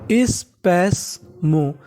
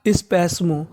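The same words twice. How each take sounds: First: स्पैस्मो stretched very slowly, each syllable apart; very slow sounding out. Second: Said in the usual way. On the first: Shown as a demonstration. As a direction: drag out स्पैस्मो slowly for learners. (स्पैस्मो बहुत धीरे-धीरे खींचकर) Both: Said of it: "क्या पढ़ेंगे?".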